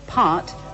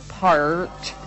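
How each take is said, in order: First: It is said with an English accent, no R. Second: It is said with an American accent, strong R.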